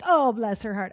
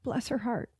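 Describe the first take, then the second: First: It is said in a mocking, condescending way. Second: It is said warmly and sincerely.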